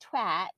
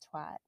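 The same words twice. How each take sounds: First: The word is said with a British pronunciation. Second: The word is said with an American pronunciation. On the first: "they say twat" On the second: "instead of twat"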